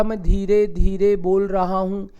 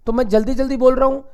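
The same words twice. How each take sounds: First: Drawn-out, deliberate words; slow speech. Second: Quick, hurried delivery; fast speech. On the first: Teacher contrasts two adverbs for the class, speaking slowly. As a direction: stretch each word out slowly. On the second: Teacher contrasts two adverbs for the class, speaking fast. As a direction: rattle it off rapidly. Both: Shown as a demonstration.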